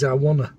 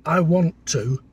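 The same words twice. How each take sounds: First: Leeds "wanna", run into one word; lazy Leeds accent. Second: "want to" as two separate words; careful standard pronunciation. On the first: Partner demonstrates the hated accent, lazy Leeds "wanna". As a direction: slur "want to" into Leeds "wanna". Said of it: "I call it lazy Leeds". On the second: Partner contrasts with Leeds speech, careful "want to". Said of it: "In Leeds is I wanna". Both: Shown as a demonstration.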